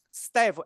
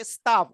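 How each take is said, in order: First: "Staff" with the front A of "cat". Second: "staff" said as "stuff", with a central U vowel. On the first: Grammarian teaching the word spelt S T A F F, front-A vowel. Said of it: "S T A F F". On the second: Grammarian contrasting the word spelt S T U F F, U vowel. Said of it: "S T U F F". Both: Shown as a demonstration.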